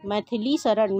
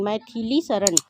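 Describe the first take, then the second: First: मैथिली as "maithli" before शरण; मैथिली शरण said as maith-li sharan; wrong pronunciation. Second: मैथिली with a full middle i; correct pronunciation. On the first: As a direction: weaken the middle i of मैथिली in मैथिली शरण. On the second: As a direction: say मैथिली शरण as mai-thi-li sharan. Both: Shown as a demonstration. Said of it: "शुद्ध और अशुद्ध रूप में".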